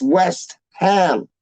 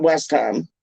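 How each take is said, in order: First: "West Ham" as two slow, separate words; correct pronunciation. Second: "West Ham" run together as one quick word; wrong pronunciation. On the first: Fan correcting Americans' pronunciation, two words drawn apart. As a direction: stretch "West", gap, then a full "Ham". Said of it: "It's West Ham". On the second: Fan showing Americans the wrong way, words run together. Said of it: "No, it's not West Ham". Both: Shown as a demonstration.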